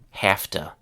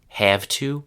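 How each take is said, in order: First: The words blend into one short reduced word. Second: Both words are said fully and separately.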